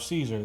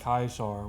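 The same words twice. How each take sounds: First: The name begins with a soft S sound. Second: The name begins with a hard K sound.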